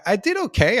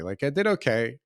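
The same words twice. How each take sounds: First: I did okay said higher and louder; I did okay thrown up high with pride; proud surprise. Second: Said in the usual way. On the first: Real, not acted. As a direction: burst out that I did okay, pleased. Proud turn in the story.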